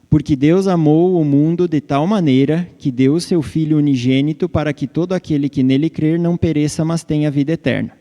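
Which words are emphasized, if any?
none. It is read flatly with no emphasis, robot-like.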